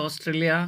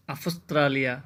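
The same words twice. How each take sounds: First: "অস্ট্রেলিয়া" as os-tre-li-a, no f; English pronunciation. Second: "আফস্ট্রালিয়া" as af-stra-li-a, with f; Greek pronunciation. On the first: Teacher comparing English with Greek, "অস্ট্রেলিয়া" in English form. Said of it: "দেখেন এখানে ইংলিশে অস্ট্রেলিয়া". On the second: Teacher showing learners the Greek form, "আফস্ট্রালিয়া" with f. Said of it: "Greek ভাষায় লেখার সময় হয়েছে". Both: Shown as a demonstration.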